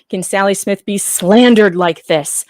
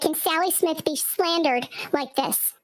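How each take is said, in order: First: It is said in his normal voice. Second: It is said in a put-on character voice.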